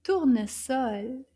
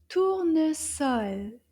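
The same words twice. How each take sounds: First: Tournesol a bit quicker, still careful; a little faster. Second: Tournesol slow, each syllable measured out; slow model word. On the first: Teacher repeating together with children, Tournesol a little bit faster. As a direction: speed Tournesol up slightly. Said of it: "a little bit faster". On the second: Teacher modelling for children, Tournesol slow and deliberate. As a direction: say Tournesol slowly and clearly. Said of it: "say it together a little bit faster". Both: Shown as a demonstration.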